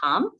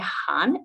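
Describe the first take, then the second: First: The syllable ends in an m sound. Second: The syllable ends in an n sound. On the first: The speaker calls it wrong. "we won't say ham" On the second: The speaker calls it right. "we will say han"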